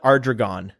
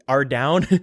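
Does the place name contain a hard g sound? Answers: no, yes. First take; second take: yes; no. First: The name is said with a hard g sound. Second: The name is said with no g sound.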